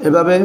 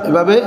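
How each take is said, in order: The two takes are said the same way.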